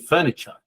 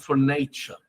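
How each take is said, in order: First: The stress falls on the first syllable. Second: The stress falls on the middle syllable. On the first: The speaker calls it right. "It's supposed to be furniture" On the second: The speaker calls it wrong. "I'm making those capital because look at how I say it"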